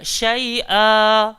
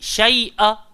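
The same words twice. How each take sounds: First: The final vowel is held for two counts. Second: The word ends abruptly with the final vowel cut short. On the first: The speaker calls it right. "Dia kena syai'a" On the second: The speaker calls it wrong. "Jangan berhenti handbrake. Jangan berhenti syai'a. Tak boleh"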